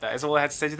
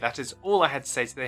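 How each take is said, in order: First: It is said fast. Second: It is said more slowly.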